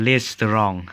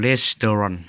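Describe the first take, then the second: First: "restaurant" said as "res-te-rong", ending in ng; lazy Lao pronunciation. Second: "restaurant" said as "res-ta-ron", ending in n; correct pronunciation. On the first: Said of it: "แต่คนลาวมันมักง่ายเนาะ". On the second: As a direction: say "restaurant" with a final n, no g. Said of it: "แต่ความจริงมันอ่านว่า". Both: Shown as a demonstration.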